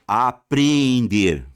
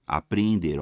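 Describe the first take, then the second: First: "Apreender" stretched slowly and loud; "Apreender" pulled long and firm; drawn-out apreender. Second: Said in the usual way. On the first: Shown as a demonstration. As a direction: draw out "Apreender" slowly to mark the extra e. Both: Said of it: "parônimas".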